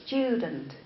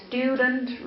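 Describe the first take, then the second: First: "student" as "styoo-dent"; British pronunciation. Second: "student" as "stoo-dent"; no y-glide after the t in "student"; non-British pronunciation. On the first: Teacher showing students British English, glided "student". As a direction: put a y-glide after the t in "student". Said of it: "But in British English, it's pronounced". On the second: Teacher contrasting with British English, plain "stoo" in student. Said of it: "we say stu". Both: Shown as a demonstration.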